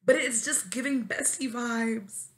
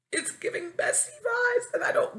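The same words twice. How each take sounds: First: Said in the usual way. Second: Very high complaining cry; exasperated squeal. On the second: Real, not acted. Venting about being treated as a bestie, exasperated squeal. Wails the repeat.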